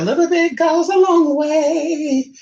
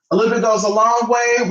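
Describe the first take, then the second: First: Higher, slow, lightly voiced pop-star quote; a playful nod to the singer; mock celebrity voice, higher and slower. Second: Said in the usual way. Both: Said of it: "[name] said it".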